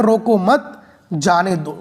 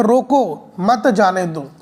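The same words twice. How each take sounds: First: रोको मत together, pause, then जाने दो set apart; pause after मत. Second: रोको alone, pause, then मत जाने दो as one phrase; pause after रोको. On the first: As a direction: slowly, put the comma after मत. (रोको मत के बाद विराम, फिर जाने दो) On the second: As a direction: slowly, put the comma after रोको. (रोको के बाद विराम, फिर मत जाने दो) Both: Shown as a demonstration. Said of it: "comma कहाँ पर लगाया जाए".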